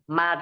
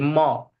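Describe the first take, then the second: First: The syllable is light with a thin vowel. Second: The syllable is heavy with a rounded vowel. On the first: The speaker calls it right. "ma di situ tidak boleh jadi mo" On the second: The speaker calls it wrong. "tidak boleh jadi mo"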